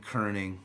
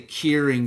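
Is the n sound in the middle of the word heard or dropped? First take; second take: heard; dropped. First: The n sound in the middle is heard. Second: The n sound in the middle is dropped.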